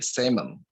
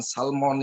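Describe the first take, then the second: First: The L sound is left out of the word. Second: The L sound is pronounced in the word. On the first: The speaker calls it right. "L-nya itu tidak dibaca atau voiceless" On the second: The speaker calls it wrong. "cara bacanya bukan salmon"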